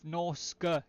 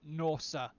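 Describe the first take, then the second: First: A K sound comes before the final vowel. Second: No K sound comes before the final vowel. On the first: "Right now I'm saying Norska because I'm just reading it literally" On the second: "with it being a C and not a K, Norsa makes sense too"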